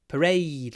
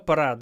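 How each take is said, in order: First: The final vowel is a long 'ay' sound. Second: The final vowel is short and flat. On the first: The speaker calls it right. "Lots of ya" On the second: The speaker calls it wrong. "people are sometimes lazy with and just say"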